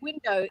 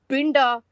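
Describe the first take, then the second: First: The word begins with a W sound. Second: The word begins with a B sound. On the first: "instead of window" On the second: "it's binda"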